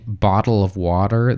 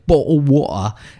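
First: It is said in a plain American accent. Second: It is said in a broad British accent. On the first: "instead of saying" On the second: "what real English people sound like"

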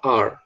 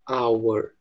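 First: It is reduced, sounding like 'are'. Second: It is said in full, like 'hour'. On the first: The word is said inside a sentence. "quando ele está dentro de uma frase, a gente geralmente fala are" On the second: The word is said on its own. "Quando ele é pronunciado isoladamente, a gente fala our"

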